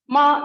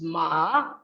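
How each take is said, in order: First: The pitch stays high and level. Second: The pitch dips low, then rises. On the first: It means mother. "ma with high level pitch" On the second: It means horse. "low or falling then rising pitch"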